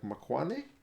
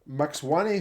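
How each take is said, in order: First: The first syllable is said as 'mak'. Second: The first syllable is said as 'maks'. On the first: The speaker calls it right. "should be pronounced something more like Makwane" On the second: The speaker calls it wrong. "I see M A X. I want to go Max"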